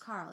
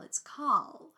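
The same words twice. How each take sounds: First: Said in the usual way. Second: Carl said as "Cawl", no R; movie pronunciation of Carl. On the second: Retold or imitated. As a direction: Carl with a rounded aw and no R. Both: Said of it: "How do they say it?".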